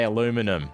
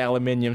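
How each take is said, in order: First: It has four syllables, a-LU-mi-num. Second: It has five syllables, al-u-MIN-ium. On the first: The speaker calls it right. "say aluminum" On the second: The speaker calls it wrong. "Don't say aluminium"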